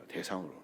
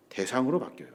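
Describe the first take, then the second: First: 대상으로 repeated much softer and lower, falling; quiet emphatic echo of 대상으로; soft echoed stress. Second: Said in the usual way. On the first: Shown as a demonstration. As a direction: drop to a hush and let 대상으로 sink in. Repeats key word.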